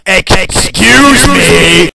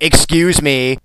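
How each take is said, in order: First: It is said loudly and angrily. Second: It is said calmly and politely.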